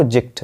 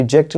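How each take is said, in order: First: जेक्ट with a short I; correct pronunciation. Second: जेक्ट with open "jackt"; wrong pronunciation. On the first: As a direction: say जेक्ट as "jikt". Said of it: "जेक्ट नहीं, वो जेक्ट है". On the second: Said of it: "यानी जेक्ट नहीं". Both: Shown as a demonstration.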